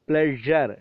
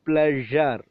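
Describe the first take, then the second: Both takes have the same delivery.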